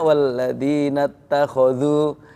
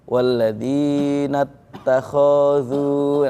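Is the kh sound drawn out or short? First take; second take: short; drawn out. First: The kh sound is short and smooth. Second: The kh sound is drawn out hesitantly. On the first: The speaker calls it right. "itu kho-nya kan harusnya" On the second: The speaker calls it wrong. "itu kan sering terjadi kayak gitu"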